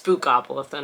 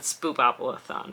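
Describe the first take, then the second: First: The second syllable starts with a k sound. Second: The second syllable starts with a p sound. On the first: The speaker calls it right. "It's Spookopalathon" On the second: The speaker calls it wrong. "not Spoopopalathon"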